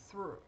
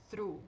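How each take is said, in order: First: Through with a light English th and a plain "u"; correct through. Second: Through with a guttural Portuguese R, like arara; wrong Brazilian R. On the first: Teacher contrasting with the wrong take, clean English through. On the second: Teacher showing students the mistake to avoid, mock wrong R. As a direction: swap the th for the Brazilian R sound in Through. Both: Shown as a demonstration. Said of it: "ao invés de through".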